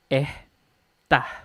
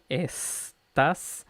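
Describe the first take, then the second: First: The s is a breathy h-like sound. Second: The s is a clear hissing sound. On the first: "acá en Chile es" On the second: "en español estándar"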